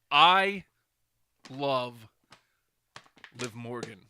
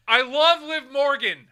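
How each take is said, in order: First: Long pauses after I and after love, shouted I easing to a normal Liv Morgan; word-by-word declaration. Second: High, slow, full-blast yell; shouted declaration. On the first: Repeating the love declaration for a friend, emphatic word by word. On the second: Telling a friend of love for a wrestler, mock-earnest shout. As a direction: bellow the whole line in one go. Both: Pretend.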